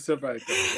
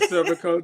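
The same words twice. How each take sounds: First: It is said the Jamaican/Guyanese way. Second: It is said the Antiguan way.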